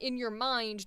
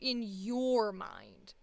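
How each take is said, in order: First: The stress falls on the word mind. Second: The stress falls on the word your. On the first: "this whole previous time it's been around in your mind" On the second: "This time it was your mind"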